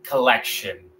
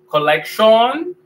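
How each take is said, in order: First: It is pronounced with English sounds. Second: It is pronounced with Spanish-like sounds. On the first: The speaker calls it right. "vamos a decir collection" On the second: The speaker calls it wrong. "Vamos a decir collection. No"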